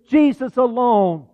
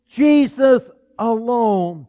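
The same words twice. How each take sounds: First: Said in the usual way. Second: Jesus alone drawn out slowly and weighted; slow emphasis. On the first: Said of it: "The King James says". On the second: Shown as a demonstration. Preacher repeating Jesus alone slow and weighty. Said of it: "repeated for emphasis".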